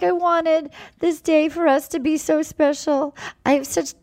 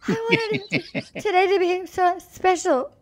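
First: High-pitched mock weepy voice; put-on high whimper; imitated sobbing. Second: Very high mock crying voice; exaggerated tearful impersonation, pitched way up; Gabby sobbing. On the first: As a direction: imitate her tearful plea, pitched up. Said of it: "she goes to him and she's sobbing". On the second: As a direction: squeak it out as a hammed-up weeper. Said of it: "Like this, ready?".

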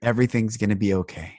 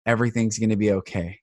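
First: Softer, quiet comfort; gentle reassurance. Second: Quiet and gentle; soft reassurance. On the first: Man comforting a struggling cashier, gentle quiet reassurance. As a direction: say it tenderly to a stranger. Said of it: "And I said". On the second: Inner voice telling him to comfort her, soft reassurance. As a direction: soothe a stranger softly. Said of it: "tell this woman". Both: Retold or imitated.

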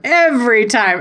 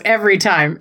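First: "Every" stretched out and pitched up; stress on Every. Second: Said in the usual way. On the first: Shown as a demonstration. Fan admitting the wrestler always fools them, emphatic stretched "Every". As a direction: lean long and high on "Every". Repeats phrase with more emphasis.

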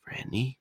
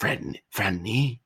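First: Weak, raised, softer rasp of a man just out of a coma; a badly done coma patient calling Franny; horrible impression of waking patient. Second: Slow, drawn-out, strained calling of the name Franny; a retake that hams up the weak patient voice; second try at the impression. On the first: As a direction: croak her name like you just woke from a coma. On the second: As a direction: stretch out Franny as if your throat is raw. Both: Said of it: "that was the horrible impression".

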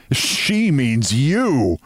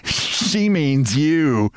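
First: "She means you" very slow, rising high on YOU; teasing retort. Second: SHE MEANS YOU drawn out slowly, higher; teasing. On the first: Narrator repaying Sylvia's jibe, "She means you" drawn out. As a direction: draw out "She means you" to throw it back. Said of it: "Now I laughed". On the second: Sylvia mocking her companion, "She means you" teasingly drawn out. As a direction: stretch "She means you" with lifted pitch. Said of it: "who laughed". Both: A narrator's reading.

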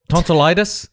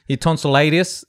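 First: Said in the usual way. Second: "tonsillitis" fumbled as "tonsil-AY-dee-us"; mispronounced. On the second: Real, not acted. Telling the others about a tonsil problem, mispronounced "tonsillitis" as "tonsil-AY-dius". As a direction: stumble on "tonsillitis", saying "tonsil-LAY-dius". Stumbles over the word, then corrects it.

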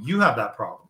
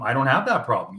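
First: You have that problem, with You and have pressed; stress on you. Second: I don't have that problem, with I leaned on; stress on I. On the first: Handing the problem back to Brady with pointed stress. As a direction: press You, then fall hard on have. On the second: Telling Brady firmly that he does not own this problem. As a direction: land firmly on I and fall. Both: Real, not acted.

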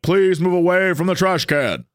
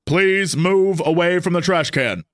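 First: Flat mechanical robot command; mock police robot warning; robot voice again. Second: Slowed, even robot announcement; lightly voiced police robot. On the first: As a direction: say it like a machine ordering you off. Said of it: "and it was like". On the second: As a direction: read it out like a patrol robot. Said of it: "a voice came out of this thing and it said".

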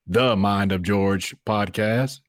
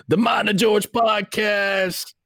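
First: Said in the usual way. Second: High, drawn-out yelled announcer voice; radio station ID. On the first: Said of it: "it's not just, like". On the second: Shown as a demonstration. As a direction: belt out a station ident, stretching every word. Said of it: "like, a radio station, um, I D".

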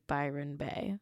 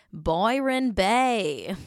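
First: Laughing mock Australian Byron Bay; mock Australian accent. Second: Said in the usual way. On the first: Shown as a demonstration. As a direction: say Byron Bay like an Aussie reality show host. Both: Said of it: "sorry for my Australian accent".

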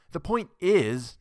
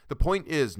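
First: Slow, loud and high, cutting him off; breaking in. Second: Said in the usual way. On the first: Acted. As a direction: seize the floor, hitting every word. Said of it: "Norma broke in".

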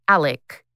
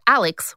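First: "Alec" ending in a hard k, no s; "Alec" with the X reduced to k; local pronunciation. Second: "Alex" with a final ks sound; "Alex" ending in an audible X; pronounced as spelled. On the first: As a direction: say "Alex" as "Alec". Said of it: "but it's pronounced Alec". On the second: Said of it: "it's spelled Alex with an X". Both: Shown as a demonstration.

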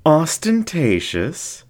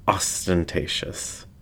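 First: High, slow, rising disbelief; mock-offended fox. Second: Said in the usual way. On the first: Flamboyant fox echoing the narrator, high and slow. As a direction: fling the word back, scandalised.

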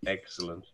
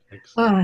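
First: Said in the usual way. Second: A louder, higher cheer of Excellent, bursting out; delighted exclamation. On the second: Real, not acted.

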